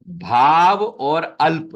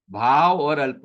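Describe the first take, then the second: First: "भाव और अल्प" slow and louder, each part stressed; slow emphatic split. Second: Said in the usual way. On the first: Shown as a demonstration. Teacher splits the compound for the students, slow and emphatic. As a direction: lean on "भाव" and "अल्प" slowly and loudly. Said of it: "फिर". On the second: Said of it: "यहां भी same to same".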